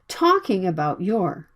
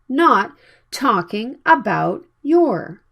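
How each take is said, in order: First: About your is quick and reduced. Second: About your is full and clearly pronounced. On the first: The speaker calls it right. "native speakers make the sounds like talking about your" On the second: The speaker calls it wrong.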